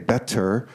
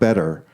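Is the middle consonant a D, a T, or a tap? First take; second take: T; tap. First: The middle consonant is a clear T. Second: The middle consonant is a soft tap. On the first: The speaker calls it wrong. "It's not really a T. We don't say better" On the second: The speaker calls it right. "some intermediate sound"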